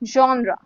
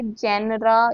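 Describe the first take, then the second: First: It begins with a 'zhon' sound. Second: It begins with a 'jen' sound. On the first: The speaker calls it right. "इसको हम बोलेंगे जॉनरा" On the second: The speaker calls it wrong. "ऐसे कुछ नहीं बोलते"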